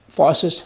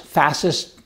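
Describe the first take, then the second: First: Fascist said with a broad ah vowel, FAH-sist; one pronunciation. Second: Fascist said with a flat a as in cat, FA-sist; other pronunciation. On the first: Vlogger tries out ways to say the word, broad FAH-sist. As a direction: say Fascist as FAH-sist, open ah in the first syllable. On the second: Vlogger tries the other way to say it, flat FAS-ist. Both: Shown as a demonstration. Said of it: "a lot of people pronounce it a lot of different ways".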